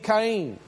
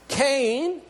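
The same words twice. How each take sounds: First: The name is said with Hebrew pronunciation. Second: The name is said with English pronunciation. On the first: "but it would be in this Hebrew, it would be Cain" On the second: "How we pronounce it in English"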